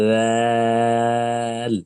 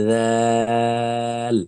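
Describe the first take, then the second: Both takes have the same delivery.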